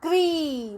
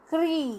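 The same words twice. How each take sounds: First: Put-on क्री said a touch higher, prompting the kids; क्री repeated. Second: क्री said crisply with a falling close; क्री pronounced. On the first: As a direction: repeat क्री for the class to echo. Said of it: "क्या बन गया?". (क्री दोहराते हुए) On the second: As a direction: model क्री cleanly. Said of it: "री की मात्रा लगा दी तो बन गया". (क्री का उच्चारण दिखाते हुए) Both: Shown as a demonstration.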